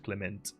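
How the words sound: The name is said with a French pronunciation. The speaker calls it wrong. "I was doing a French one, which is Clement"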